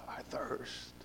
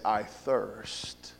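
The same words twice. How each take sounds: First: Faint dry whisper; parched whisper. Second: Low, hushed and parched; parched thirsty voice. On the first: Shown as a demonstration. Preacher demonstrating Christ's dying thirst, parched whisper. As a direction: barely breathe it out, throat dry. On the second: Retold or imitated. Preacher imagining Jesus on the cross, parched and hushed. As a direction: let the dry throat crack on it. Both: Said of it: "the gravelly, just thirsty voice".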